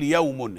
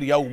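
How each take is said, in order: First: The word ends with an added n sound. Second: The word ends without an added n sound. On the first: The speaker calls it wrong. "انت كده بتنوين اليوم، بتقول يوم" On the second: The speaker calls it right. "هي يوم على طول من غير يوم"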